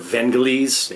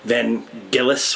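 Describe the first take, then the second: First: The G is pronounced as a soft G. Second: The G is pronounced as a hard G.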